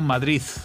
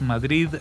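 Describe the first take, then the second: First: The word ends with a z sound. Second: The word ends with a d sound.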